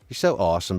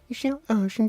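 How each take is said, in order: First: It is said in the speaker's normal voice. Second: It is said in a put-on cartoon voice.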